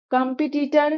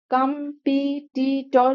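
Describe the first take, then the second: First: Said in the usual way. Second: competitor stretched out slowly in separate syllables. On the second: Shown as a demonstration. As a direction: sound out competitor very slowly, piece by piece. Sounds out spelling by syllables.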